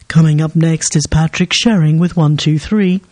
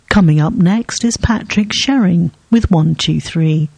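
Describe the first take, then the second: First: The voice is pitched lower. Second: The voice is pitched higher. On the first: "I can make it a bit lower" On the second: "my plush speaking voice for voiceovers"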